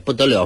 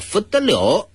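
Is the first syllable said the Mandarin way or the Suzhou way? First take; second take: Mandarin; Suzhou. First: The first syllable is said the Mandarin way, 'bu'. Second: The first syllable is said the Suzhou way, like 'fu'.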